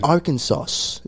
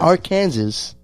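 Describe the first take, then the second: First: The word is not pronounced as it is spelled. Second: The word is pronounced the way it is spelled. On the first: The speaker calls it right. "he's in Arkansas" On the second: The speaker calls it wrong.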